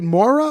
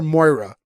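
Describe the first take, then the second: First: Moira said as MOR-uh; first pronunciation of Moira. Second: Moira said as MOY-ruh; alternative pronunciation of Moira. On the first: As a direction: say Moira with a plain "or" vowel, no "oy". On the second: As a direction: say Moira with an "oy" in the first syllable. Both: Shown as a demonstration. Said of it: "is it Moira or Moira".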